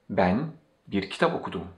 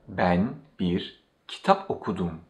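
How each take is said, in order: First: It is said at normal speed. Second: It is said a little more slowly.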